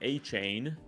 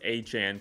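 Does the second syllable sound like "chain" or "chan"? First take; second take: chain; chan. First: The second syllable rhymes with "chain". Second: The second syllable sounds like "chan". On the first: This follows how the name is spelt. The speaker calls it wrong. "everybody's calling him A-Chain because that's how it's spelt" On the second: This is how the person wants to be called. The speaker calls it right. "no, it's Achan, please call me Achan"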